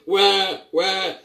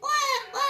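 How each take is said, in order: First: It is said in a deep voice. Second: It is said in a tiny baby voice.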